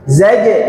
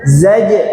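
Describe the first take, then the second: The two takes are said the same way.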